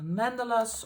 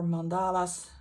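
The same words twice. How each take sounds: First: "mandalas" stressed on the first syllable; alternative pronunciation. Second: "mandalas" stressed on the second syllable; long middle "a" in "mandalas"; alternative pronunciation. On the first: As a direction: say "mandalas" as MAN-duh-luhs. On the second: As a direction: say "mandalas" as mun-DAH-luhs. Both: Shown as a demonstration. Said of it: "how you pronounce it".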